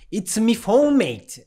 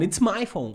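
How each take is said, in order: First: Imitating a friend's Irish lilt, higher; Irish accent, playful impression; mock Irish accent. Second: Said in the usual way. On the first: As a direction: tease him with a jokey Irish accent. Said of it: "that's not my accent". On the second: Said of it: "It's not".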